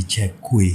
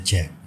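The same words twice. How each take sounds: First: Two syllables, "chek-kweh"; read as spelt. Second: One short syllable, "chek"; correct reading. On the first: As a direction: CHECK KUE with a second syllable, "kue". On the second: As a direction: CHECK as one syllable, ending on k. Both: Shown as a demonstration. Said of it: "tetapi membacanya check".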